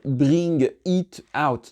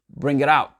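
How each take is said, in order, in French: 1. La phrase est dite lentement, mot par mot. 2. La phrase est dite très vite, les mots s'enchaînent. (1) "Vous, en tant que francophone, à dire bring it out" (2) "Et comment c'est super rapide?"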